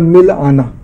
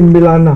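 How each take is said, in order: First: It has a short break before the last part. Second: It is said as one word without a break. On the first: To go and meet someone. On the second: To make someone meet or to mix.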